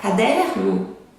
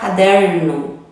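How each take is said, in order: First: It is said Minas-style with a soft R. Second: It is said São Paulo-style with a strong R.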